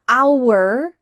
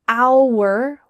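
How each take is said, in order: First: The word is said slowly and fully. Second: The word is said slowly and fully.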